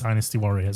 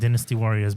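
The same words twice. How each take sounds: First: Dynasty is pronounced with an American pronunciation. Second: Dynasty is pronounced with a British pronunciation. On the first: "I prefer the American way" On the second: "I don't like pronouncing it like this"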